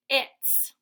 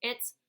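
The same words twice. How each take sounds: First: "its." louder and higher, hissing S; stressed S. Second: Said in the usual way. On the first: Shown as a demonstration. Teacher stressing the added S. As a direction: hit the added S. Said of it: "adding an S". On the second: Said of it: "instead of it".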